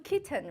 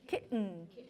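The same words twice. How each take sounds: First: The middle consonant is a clear T sound. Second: The middle consonant is a glottal stop. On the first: "Usually people do kitten" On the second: "other American guy people pronounce it differently"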